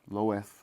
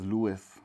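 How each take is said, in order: First: The name is said in its usual form, Lois. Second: The name is said so it sounds like Lewis.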